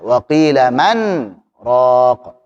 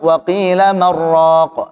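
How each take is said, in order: First: There is a brief pause after man. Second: The words run together without any pause.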